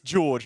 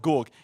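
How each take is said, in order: First: The name ends with a soft J sound. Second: The name ends with a hard G sound. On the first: The speaker calls it right. "it's it's George" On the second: The speaker calls it wrong. "not Gorg"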